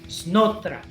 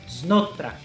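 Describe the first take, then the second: The two takes are said the same way.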